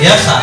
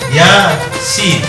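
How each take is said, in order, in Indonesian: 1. Huruf-hurufnya dibaca menyambung sebagai suku kata pendek. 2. Setiap huruf dibaca dengan nama lengkapnya. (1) "nggak boleh ya sa" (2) "dibaca sin sebagaimana aslinya"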